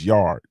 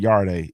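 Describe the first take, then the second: First: The word ends on the D, no vowel. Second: A vowel sound is heard after the final D. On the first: The speaker calls it right. "It's yard. The E silent" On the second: The speaker calls it wrong. "It's not Yarde"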